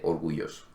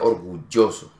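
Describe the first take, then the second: First: The ll sounds like a soft i vowel. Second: The ll sounds like a strong y consonant. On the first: The speaker calls it wrong. "en ninguna de ellas se dice orgulloso" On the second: The speaker calls it right. "Normalmente se pronuncia orgulloso, ... es una Y fuerte"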